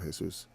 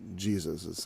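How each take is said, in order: First: The name is said with a Spanish pronunciation. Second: The name is said with an English pronunciation. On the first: "instead of Jesus" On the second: "the anglicized Jesus"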